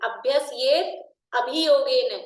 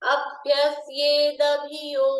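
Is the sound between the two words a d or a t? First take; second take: t; d. First: The words stay separate with a t sound. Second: The words are joined with a d sound.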